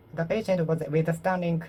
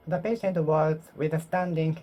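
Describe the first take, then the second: No difference in how they are said.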